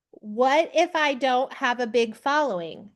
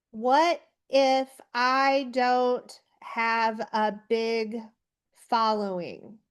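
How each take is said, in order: First: Said in the usual way. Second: Slow, spaced-out words as if typing them; dictating while typing. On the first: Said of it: "So I said". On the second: Shown as a demonstration. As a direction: read it out word by word while typing, fading at the end. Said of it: "I'm typing that out".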